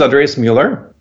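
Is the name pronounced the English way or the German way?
English. The name is said with an English pronunciation.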